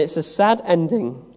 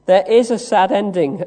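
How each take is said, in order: First: Said in the usual way. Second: "is" stressed, said louder. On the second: Real, not acted. Preacher concedes Peter's sad ending before hope, stressing "is". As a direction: concede it with a firm push on "is".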